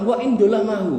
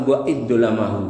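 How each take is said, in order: First: A lightly voiced son asking, a little raised; pleading son's question. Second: Lower, settled answering voice; Prophet's calm answer. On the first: Wronged son asks the Prophet, lightly voiced questioning. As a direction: ask it like a wronged son seeking answer. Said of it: "anak ini pun bertanya kepada Nabi". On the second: Retold or imitated. Prophet answers the wronged son, lower and calm. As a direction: answer it gently, with authority. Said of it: "Kata Nabi sallallahu alaihi wasallam".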